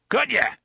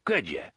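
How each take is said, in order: First: Much higher, louder bark; the boss suddenly roars at the underling. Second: Said in the usual way. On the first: Acted. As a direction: explode on the repeat. TikTok snaps repeat.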